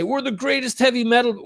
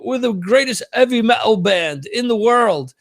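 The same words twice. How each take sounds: First: Said in the usual way. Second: Higher-pitched mock British boast, dropped h; lame British accent. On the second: Singer boasting on TV, lame British accent. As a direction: put on a bad British accent, higher than your own. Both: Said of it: "that's my lame British accent".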